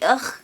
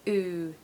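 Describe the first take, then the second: First: The letters are said with an 'uh' vowel. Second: The letters are said with an 'ooh' vowel. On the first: The speaker calls it wrong. "If we said that phonetically, it would be ugh" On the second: The speaker calls it right. "The sound you want is literally ooh"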